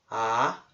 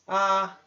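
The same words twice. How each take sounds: First: The pitch rises like a question. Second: The pitch stays level and high. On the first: "Segundo tom" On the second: "primeiro tom"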